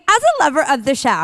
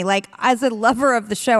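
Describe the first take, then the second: First: Put-on bubbly Valley Girl lilt. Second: Said in the usual way. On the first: Shown as a demonstration. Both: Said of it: "I go right into Valley Girl voice".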